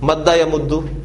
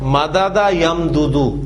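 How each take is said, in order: First: The repeated consonants merge into one doubled sound. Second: The repeated consonants are separated by a vowel. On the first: The speaker calls it right. "Easy हो गया ना" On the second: The speaker calls it wrong. "ये आपकी जुबान पे कितने भारी अल्फाज हैं"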